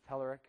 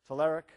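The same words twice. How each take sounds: First: The name is said the American way. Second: The name is said the Bulgarian way. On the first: "If you're from the United States, it's Telerik" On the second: "Usually if you're from Bulgaria, it's Telerik"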